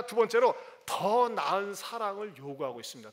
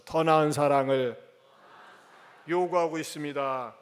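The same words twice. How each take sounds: First: Said in the usual way. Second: "더 나은 사랑을" slow and loud, each syllable spaced for the congregation to repeat; slow, loud words for the church to echo back; slow call-out. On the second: Shown as a demonstration. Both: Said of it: "따라서 합시다".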